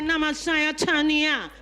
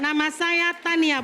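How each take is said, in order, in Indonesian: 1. Bunyi T-nya seperti T gaya Inggris. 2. Bunyi T-nya seperti T Indonesia biasa. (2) "Jadi katakan"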